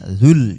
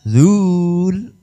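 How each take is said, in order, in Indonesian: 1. Vokalnya dibaca pendek. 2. Vokalnya dibaca panjang. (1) "tidak dibaca panjang" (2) "mestinya zul"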